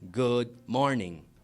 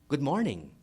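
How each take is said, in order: First: It is said flat and cold. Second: It is said with lively, varied melody.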